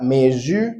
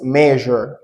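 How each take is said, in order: First: Teacher showing the mistaken measure; wrong pronunciation. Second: Teacher giving the correct measure slowly; right pronunciation. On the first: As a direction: measure said meh-zur with a hard Z, the wrong way. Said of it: "It's not measure". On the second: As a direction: draw out measure, the middle buzzing like the S in pleasure. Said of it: "it's measure". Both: Shown as a demonstration.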